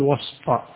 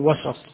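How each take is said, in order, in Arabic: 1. لا توجد حركة بعد السين. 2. تتبع السين فتحة قصيرة. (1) "إذا أردت الظرف تقول وسط" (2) "وإذا أردت الاسم تقول وسط"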